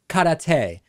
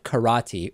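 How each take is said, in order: First: The word karate is said an alternative way. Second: The word karate is said the common way.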